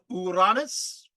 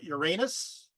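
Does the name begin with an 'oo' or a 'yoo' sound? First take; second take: oo; yoo. First: The name begins with an 'oo' sound. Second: The name begins with a 'yoo' sound. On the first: It follows the ancient Greek pronunciation. "I don't say it that way" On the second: It follows the common modern pronunciation. "today we say"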